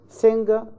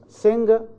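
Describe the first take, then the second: The two takes are said the same way.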